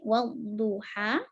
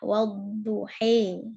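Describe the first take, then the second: First: The final vowel is a fully open a. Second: The final vowel is close to e. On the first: "kalau Fathah berarti wadduha" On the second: "imalah wadduhe"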